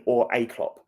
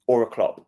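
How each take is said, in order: First: "a" said as a slow, full "ay"; stress on A. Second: Said in the usual way. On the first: Real, not acted. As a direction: stretch "a" to rhyme with "day" to mean someone like him. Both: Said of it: "I'm not saying Klopp, I mean".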